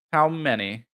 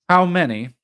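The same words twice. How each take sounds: First: Said in the usual way. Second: Eager question. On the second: A narrator's reading. Arthur repeats question eagerly.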